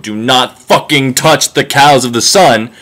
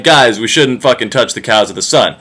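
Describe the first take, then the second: First: Each word of "Do not fucking touch the cows of the sun" spelled out slowly, ending falling on "sun"; slow, deliberate prophet's warning; slow solemn warning. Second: Said in the usual way. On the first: Retold or imitated. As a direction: lay down the law slowly and firmly. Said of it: "and I quote". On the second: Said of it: "is like".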